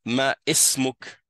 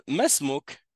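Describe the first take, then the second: First: Ma ismouk with the alif sounded, ma-ismouk; wrong way. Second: Masmouk slowly, alif dropped, one word; right way. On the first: Teacher showing the wrong reading ma ismouk. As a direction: pronounce ma ismouk as two separate words. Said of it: "je vais pas dire". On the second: Teacher slowly modeling masmouk joined. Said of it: "c'est comme s'il n'était pas là". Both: Shown as a demonstration.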